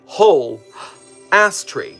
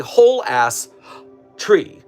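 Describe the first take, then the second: First: 'Ass' is grouped with 'tree', apart from 'whole'. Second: 'Ass' is grouped with 'whole', apart from 'tree'. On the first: A whole tree of a kind called an ass tree. The speaker calls it wrong. "where the hyphen is between ass and tree" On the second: An entire tree. The speaker calls it right. "where the hyphen's in between whole and ass"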